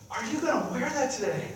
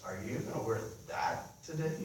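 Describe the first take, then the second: First: It sounds admiring and delighted. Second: It sounds critical and disapproving.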